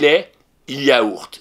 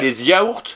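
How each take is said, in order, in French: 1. Les deux mots sont dits sans liaison en z. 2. Les deux mots sont liés par une liaison en z. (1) "on ne fait pas la liaison" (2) "on ne dit pas"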